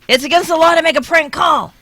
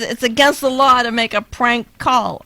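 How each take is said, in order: First: It is shouted loudly. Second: It is said at a normal speaking volume. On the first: The speaker calls it right. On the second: The speaker calls it wrong.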